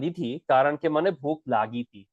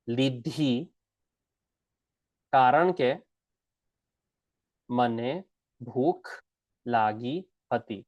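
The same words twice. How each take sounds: First: The sentence is said quickly and smoothly. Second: The sentence is said slowly and carefully.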